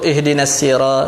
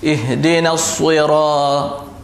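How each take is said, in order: First: The s is lighter, without puffed cheeks or rounding. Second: The s is heavy, with puffed cheeks and rounded lips. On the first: The speaker calls it wrong. "biasa kita sebut ihdinas sira ... Sebenarnya tak betul lagi" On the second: The speaker calls it right. "kena kembungkan mulut tak, dengan muncungkan sikit mulut"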